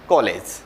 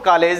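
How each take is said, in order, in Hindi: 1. पहला स्वर खुला, गोलाई वाला 'aw' है। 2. पहला स्वर सादा, बिना गोलाई वाला 'aa' है। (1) "अब हम इसका उच्चारण करेंगे तो इसको बोलेंगे हम" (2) "हिंदी में हम इसको कॉलेज नहीं बोलेंगे"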